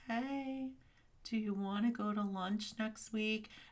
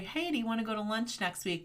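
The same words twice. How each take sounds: First: It is said in an upset, troubled tone. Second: It is said in a plain, neutral tone.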